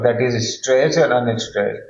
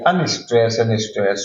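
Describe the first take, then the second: First: Even teacher's read, stressed then unstressed; stressed before unstressed, spoken evenly; stressed first. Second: Slow, deliberate unstressed then stressed; slowed down to show the iambic order; unstressed first. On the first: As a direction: say it plainly, stress leading. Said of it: "in this order". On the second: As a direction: spell out the order slowly for students. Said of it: "the order of the syllables like". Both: Shown as a demonstration.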